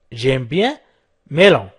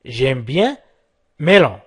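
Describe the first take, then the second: No difference in how they are said.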